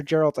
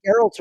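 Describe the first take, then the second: First: "Geralt" with a soft G, like a J. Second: "Geralt" with a hard G, as in get. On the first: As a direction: start "Geralt" with a J sound. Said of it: "I thought it was a G". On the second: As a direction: say "Geralt" starting with a hard G sound. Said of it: "on the West we'd say Geralt". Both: Shown as a demonstration.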